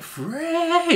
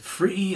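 First: The vowel is shifted toward an 'ay' sound. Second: The vowel is a clear 'ee' sound. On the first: "changing the E vowel sound to an A" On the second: "instead Of going, you know, it's free"

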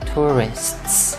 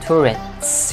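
First: The final consonants are all clearly pronounced. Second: The final consonants are glided over quickly. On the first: "nếu mà đọc liền cho nó chính xác hơn nữa là tourists" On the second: "Nếu đọc mà lướt các bạn thấy là tourists cũng được"

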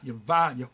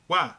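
First: The middle consonant is a V sound. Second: The middle consonant is a W sound. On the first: The speaker calls it wrong. "Not Yahweh" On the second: The speaker calls it right. "V in the Hebrew Paleo ancient had a W sound"

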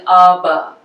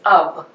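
First: The final consonant is voiced and released. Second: The final consonant is a voiceless stop. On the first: The speaker calls it wrong. "we won't be saying UB" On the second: The speaker calls it right. "they will end and sound like a voiceless stop"

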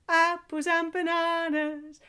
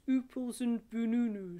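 First: The words keep their normal mixed vowels. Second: Every vowel is replaced by an oo sound.

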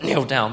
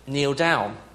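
First: It is said forcefully and sharply. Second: It is said gently and softly.

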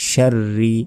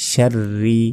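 The two takes are said the same way.

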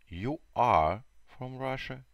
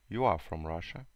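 First: You and are are said as two full words. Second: You and are are joined into one contracted syllable. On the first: "Long form – это длинная форма" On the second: "Short form – короткая форма"

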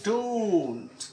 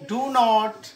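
First: Said as one short contracted word. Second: Said as two separate full words.

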